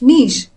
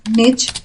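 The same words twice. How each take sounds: First: The word rhymes with leash. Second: The word rhymes with ditch. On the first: "that rhymes with leash" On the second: "which rhymes with ditch"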